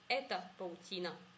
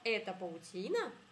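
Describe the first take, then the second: First: It is said with statement intonation. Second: It is said with question intonation. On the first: It states that this is a web. "On dit" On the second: It asks whether this is a web. "Et la question, ... c'est que l'intonation"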